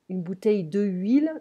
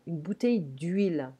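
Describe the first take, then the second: First: De is said as a separate syllable. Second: De is merged into huile as d'huile. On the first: The speaker calls it wrong. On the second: The speaker calls it right.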